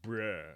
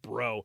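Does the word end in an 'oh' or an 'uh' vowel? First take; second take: uh; oh. First: The word ends in a short, reduced uh vowel. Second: The word ends in a full, long O vowel. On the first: "They don't even put the emphasis on the O. It's just bruh" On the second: "It's not even bro"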